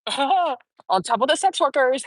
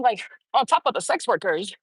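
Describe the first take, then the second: First: Slow, laughing through the words. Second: Said in the usual way. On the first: Real, not acted. Amused at her own list of affairs, laughing. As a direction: chuckle as you repeat it.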